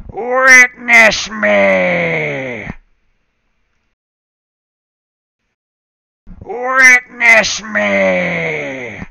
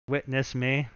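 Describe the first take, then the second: First: Slow, drawn-out loud creepy chant; creepy acolyte voice. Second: Said in the usual way. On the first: Acted. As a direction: stretch each word like a cultist's call. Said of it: "Sound like a creepy acolyte voice". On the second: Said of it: "plain repeat of the recorded line".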